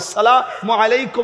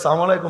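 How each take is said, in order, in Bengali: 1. সালামটি পুরোটা বলা হয়, প্রতিটি অক্ষর উচ্চারিত হয়। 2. সালামটি সংক্ষেপে বলা হয়, শুরুর ধ্বনিগুলো বাদ দেওয়া হয়। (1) "অরিজিনালি কি সালাম এটা" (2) "সালাম আলাইকুম শব্দের অর্থ হলে তুই মর"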